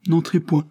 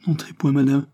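First: Higher again, louder, near panic; more frightened stammer. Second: Higher, halting plea at the door; frightened stammer. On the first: Maid begs the visitor again, panicked stammer. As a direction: repeat it more desperately, voice climbing. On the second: Maid blocking the sickroom door, stammering in fear. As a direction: blurt it out in a panic, stumbling. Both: A narrator's reading. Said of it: "balbutia-t-elle".

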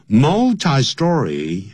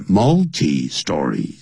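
First: "multi-story" said "MUL-tie-story", drawn out; slow "multi-story" with a long I in "multi"; preferred "mul-tie". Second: "multi-story" said "MUL-tee-story"; "multi-story" with an ee sound ending "multi"; alternative "mul-tee". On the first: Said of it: "我喜欢念成multi". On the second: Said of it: "或是念multi-story". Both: Shown as a demonstration.

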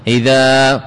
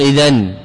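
First: إذا said ending in a long a, the nun turned into alif; correct pausal form. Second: إذن said ending in a clear n; the incorrect pause on إذن with n; wrong pausal form. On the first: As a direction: end إذا on a plain long vowel with no n. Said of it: "إذا وقفت عليها". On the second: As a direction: close إذن on a sounded nun as the mistake to avoid. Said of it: "ولا تقل". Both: Shown as a demonstration.

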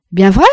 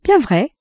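First: VRAI rising as a question, loud; doubting "Bien vrai", pitched up at the end. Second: BIEN high, falling away on vrai; reassuring "Bien vrai", dropping to a close; confirming. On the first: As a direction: ask "Bien vrai" loudly with a lift on vrai. Son doubts, asks mother to confirm. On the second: Mother confirms to son. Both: A narrator's reading.

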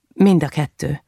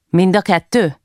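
First: Said in the usual way. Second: "Mind a kettő?" as a question, rising then falling at the end. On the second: A narrator's reading. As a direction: ask "Mind a kettő?" to check a detail. Judge's question, echoed as answer. (kérdő hanglejtéssel: „Mind a kettő?”)

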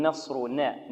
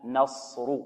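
First: نصرنا with the nun bent toward a thin vowel; wrong light nun. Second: نصر with an open, full nun; correct nun. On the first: Teacher imitating a student's mistake. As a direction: mimic a student's slanted nun. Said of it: "خطأ". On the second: Teacher giving the right form after the mistake. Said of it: "لا، نا". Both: Shown as a demonstration.

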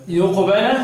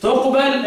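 First: يقبل starting with yu-, as yuqbala; recited يقبل with masculine y prefix; masculine reading. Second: تقبل starting with tu-, as tuqbala; recited تقبل with feminine t prefix; feminine reading. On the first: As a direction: begin يقبل on a y. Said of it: "اقرأها بالتذكير لمين؟". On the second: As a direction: begin تقبل on a t. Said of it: "وأن تقبل التذكير". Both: Shown as a demonstration.

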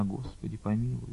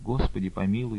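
First: Much softer faint plea; a faint fainting prayer; barely audible prayer. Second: Softer faint plea, a little stronger; a soft repeated prayer. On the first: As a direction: pray almost without voice. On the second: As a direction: repeat the plea under breath. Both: A narrator's reading. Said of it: "чуть слышно шептала она".

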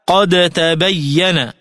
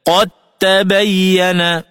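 First: Slow "قد تبين" with the D released before T; unassimilated dal. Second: Slow "قد تبين" as qat-tabayyana; dal into ta. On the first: Tajweed teacher quoting the verse, D kept in "قد تبين". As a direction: sound both D and T, qad-tabayyana, in "قد تبين". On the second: Tajweed teacher showing the merger, TT in "قد تبين". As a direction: drop the D of قد into a doubled T in "قد تبين". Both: Shown as a demonstration. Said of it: "فتلفظ هكذا".

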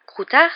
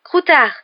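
First: High, loud rising question on Croutard; stunned, questioning cry. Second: High, loud shout with falling end; emphatic, astonished cry; startled exclamation. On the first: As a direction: ask it in blank disbelief, pitch climbing. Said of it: "dit Ron d'une voix blanche". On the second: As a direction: call out the name in amazed recognition. Ron recognises his lost rat. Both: A narrator's reading.

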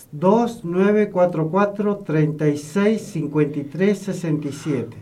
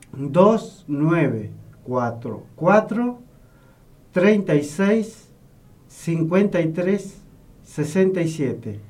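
First: Phone number read in brisk groups; number given a little hurriedly; a bit quick. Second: Slow, spaced-out phone number; slowly. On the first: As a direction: read the number straight through, short pauses. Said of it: "lo dije medio rápido". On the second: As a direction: repeat it slowly, group by group. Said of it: "lo vamos a ir repitiendo despacito". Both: Real, not acted.

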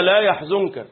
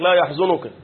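First: لا يحزنك with the nun silent, no vowel before the kaf; correct recitation. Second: لا يحزنك with an added u on the nun, yahzunuka; mistaken recitation. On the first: Teacher shows students the right reading, correct recitation. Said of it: "الغلط بعض الناس يغلط". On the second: Teacher imitates people's common slip, mistaken recitation. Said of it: "الغلط بعض الناس يغلط يقول لك". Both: Shown as a demonstration.

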